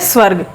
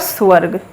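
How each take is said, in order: First: The word starts with a tight 'sv' cluster. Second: An 'oo' vowel is inserted between s and v. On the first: The speaker calls it right. "अगर हम शुद्ध उच्चारण करेंगे" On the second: The speaker calls it wrong. "अगर ऊ की sound लेके आ रहा है बोलने"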